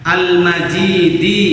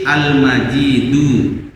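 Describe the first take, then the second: First: The word ends with a short "i" vowel. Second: The word ends with a short "u" vowel. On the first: The glory describes the throne. "di dikasrohkan karena menjelaskan tentang arasnya" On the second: The glory describes God himself. "pakai dom dhammah"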